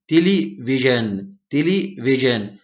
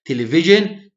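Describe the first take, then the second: First: "television" split as teli, then vision ending in jen; syllable by syllable. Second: Said in the usual way. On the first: Shown as a demonstration. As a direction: model "television" in two careful chunks, falling. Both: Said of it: "we pronounce it like jen".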